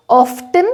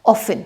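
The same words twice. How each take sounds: First: Often with the T said clearly, ofTen; often with the T sounded; wrong pronunciation. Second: Often said as OFF-en with no T; often with a silent T. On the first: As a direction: say often with a hard T, as ofTen. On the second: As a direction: drop the T in often. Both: Shown as a demonstration. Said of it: "टी soft रहता है".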